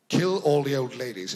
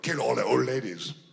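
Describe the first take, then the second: First: It is said in a natural British accent. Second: It is said in a funny put-on foreign accent. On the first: The villain sounds educated and truly frightening. The speaker calls it right. "he had a sort of British accent" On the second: The villain sounds like a ridiculous stereotype. The speaker calls it wrong. "in this kind of, I don't know, funny voice"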